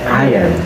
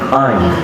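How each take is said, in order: First: The two words run together into one word. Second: The words are shortened into one syllable. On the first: "Yang kedua itu digabung" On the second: "the third one is we use construction. Disingkat"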